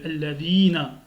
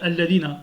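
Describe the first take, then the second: First: The vowel in 'di' is long. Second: The vowel in 'di' is short. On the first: The speaker calls it right. "alors que le di, il est allongé" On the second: The speaker calls it wrong. "c'est faux. Là, tu n'as pas allongé le di"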